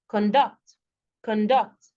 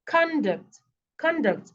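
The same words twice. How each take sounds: First: ConDUCT, weak first syllable, strong DUCT; stress on second syllable. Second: CONduct, higher first syllable with full vowel, falling; stress on first syllable. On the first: Teacher contrasting two stresses, conDUCT on the second syllable. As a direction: hold back con and land on DUCT in conduct. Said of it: "another way, it becomes a noun". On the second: Teacher contrasting two stresses, CONduct on the first syllable. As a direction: hit CON high in conduct, let duct drop. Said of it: "If you stress it one particular way". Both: Shown as a demonstration.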